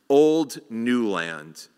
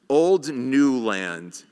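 No difference in how they are said.

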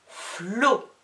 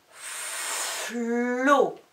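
First: "Flot" loud, F and L only briefly held; shorter dictation. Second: "Flot" with a very long F and held L; drawn-out dictation. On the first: Teacher dictating the line's last syllable, short and loud. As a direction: say "Flot" compactly and distinctly, louder. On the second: Teacher dictating the line's last syllable, greatly stretched. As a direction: stretch every sound of "Flot", higher. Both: Shown as a demonstration. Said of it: "des dictées de syllabes".

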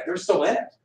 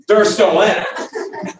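First: Said in the usual way. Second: "they're still in it" slow and punched; emphatic. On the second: Retold or imitated. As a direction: stretch and hammer each word of "they're still in it". Corrects himself, insisting it is true.

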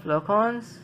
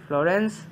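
First: "Florence" said the French way; French-style "Florence" with a nasal ending; French pronunciation. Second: "Florence" said the English way; corrected to an English-style "Florence"; English pronunciation. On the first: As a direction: say "Florence" as flo-RAHNS, with French nasal vowel. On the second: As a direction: say "Florence" as FLOR-ence, with English r. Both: Shown as a demonstration. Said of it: "Sorry, Florence".

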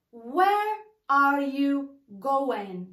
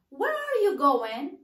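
First: Very slow, word-by-word "Where are you going", no final G; careful model pronunciation. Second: "Where are you going" run together, rising in the middle; linked-up pronunciation. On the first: Teacher modelling for learners how we pronounce it, slow separated "Where are you going". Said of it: "وغنطقوها". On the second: Teacher repeating the model for learners, "Where are you going" joined up. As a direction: link "Where are you" into one flowing phrase. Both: Shown as a demonstration.

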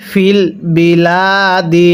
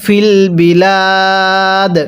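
First: Slow, with the final কসরা: বিলাদি, ending in -di; joined reading, full vowel. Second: Slow, বিলাদ ending on a bare stopped দ; pause form. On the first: Teacher shows the joined form before the pause, slow and full. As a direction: read বিলাদি slowly through to the end. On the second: Teacher shows how to stop on the word, slow. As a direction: drop the last vowel, বিলাদ ends closed. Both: Shown as a demonstration. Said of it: "এখন যদি ওয়াকফ করি তাহলে".

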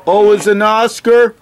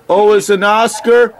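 The two takes are said the same way.

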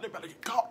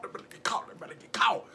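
First: Said in the usual way. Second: Soft, breathless, conspiratorial whisper. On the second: Real, not acted. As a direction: hush it so they can't hear. Whispering as they get loud.

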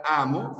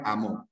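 First: "amo" as A-mo; stress on the first syllable. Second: "amor" as a-MOR; stress on the last syllable. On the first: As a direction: lean on the opening A of "amo". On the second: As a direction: put the weight on MOR in "amor". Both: Shown as a demonstration. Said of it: "frente a".

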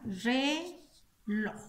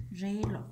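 First: "Reloj" split in two slow syllables, re, loj. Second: Said in the usual way. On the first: Shown as a demonstration. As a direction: break "Reloj" into re and loj with a pause. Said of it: "Identifico la sílaba acentuada". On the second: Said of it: "Lleva en la última sílaba".

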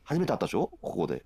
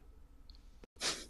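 First: Said in the usual way. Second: Whispered repeat, much softer. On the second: Real, not acted. Repeating it to the streamer in a soft whisper. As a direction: breathe the line out as a whispered aside. Repeats the same line twice.

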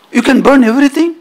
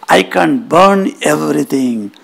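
First: "everything" rising high into a question; quick, high, doubting echo of "burn everything"; challenging question. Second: Assured claim with "everything" falling at the end; confident boast. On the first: Yaksha questioning Agni's boast, challenging rising question. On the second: Agni answering the Yaksha's challenge, confident boast. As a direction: state "I can burn everything" as settled fact. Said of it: "And he says". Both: Acted.

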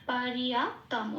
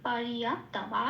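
First: পরিয়াপ্তম slowly, ending on a clear m; anusvara as m. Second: পরিয়াপ্তম slowly with a full m at the end; anusvara as m. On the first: (অনুস্বার ম করে পরিয়াপ্তম বলা) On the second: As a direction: repeat পরিয়াপ্তম closing on m. (অনুস্বার ম উচ্চারণে পরিয়াপ্তম) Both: Shown as a demonstration. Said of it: "অনুস্বারটাকে আমরা ম উচ্চারণ করি".

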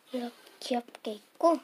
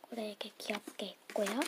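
First: Said in the usual way. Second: Quick hushed whisper; 속삭이듯 빠르게. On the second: Real, not acted. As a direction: breathe it out quickly, no voice. Hushed sticker reveal.

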